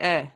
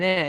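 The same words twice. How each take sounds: First: "eh" as a short, settled answer; Dundonian-style affirming "eh"; eh meaning yeah. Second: "eh" tacked on as a question; Dundonian-style questioning "eh"; eh as a tag question. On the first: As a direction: agree with a plain falling "eh". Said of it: "eh also means yeah". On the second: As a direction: seek agreement with a short "eh". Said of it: "Ken, what I'm saying". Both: Shown as a demonstration.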